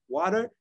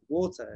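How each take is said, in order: First: Put-on "Water?" louder, higher, rising in an American accent; American accent attempt. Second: Put-on "Water" in a British accent, final R dropped. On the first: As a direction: try an American "water" as a question. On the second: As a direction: insist on a London "water". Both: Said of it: "'cause of the accent".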